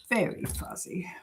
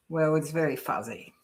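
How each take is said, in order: First: Whispered repeat of "Very fuzzy"; whispering. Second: Said in the usual way. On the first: Real, not acted. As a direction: drop to a breathy whisper on "Very fuzzy". Repeats comment on fuzzy picture.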